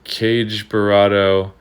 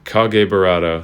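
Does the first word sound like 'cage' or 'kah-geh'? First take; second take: cage; kah-geh. First: The first word sounds like English 'cage'. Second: The first word sounds like two syllables, 'kah-geh'. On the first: The speaker calls it wrong. "that's the wrong way to pronounce it" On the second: The speaker calls it right. "It is officially pronounced"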